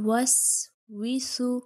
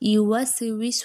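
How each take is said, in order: First: The word has a brief stop in the middle. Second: The word runs smoothly with an echoing bounce inside. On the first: The speaker calls it right. "এখানে আমি থামলাম" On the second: The speaker calls it wrong. "একই গতিতে পড়লে এটা দেখুন ইউওয়াস এরকম কলকলা হয়ে যাচ্ছে"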